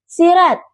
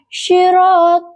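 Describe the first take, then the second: First: The first consonant is plain without vibration. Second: The first consonant is heavy with clear vibration. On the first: The speaker calls it wrong. "pengucapan sod yang tidak ada getaran sehingga terdengar seperti sirat" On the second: The speaker calls it right. "syirot dengan sod yang memiliki getaran jelas"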